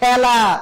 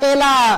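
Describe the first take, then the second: First: The first vowel is an open a sound. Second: The first vowel is a closed e sound. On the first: The speaker calls it right. "আমরা বলি" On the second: The speaker calls it wrong. "বলি না"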